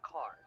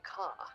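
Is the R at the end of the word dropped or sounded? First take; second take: sounded; dropped. First: The final R sound is clearly pronounced. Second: The final R sound is dropped. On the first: "York, you would say car" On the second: "if you're from, like, Boston, you say car. They don't say the R very hard"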